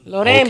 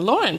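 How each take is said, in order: First: The name is pronounced the Spanish way. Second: The name is pronounced the English way. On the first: "in Spanish, my family all pronounces it Loren" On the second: "But in English, when I got here, everyone said Lauren"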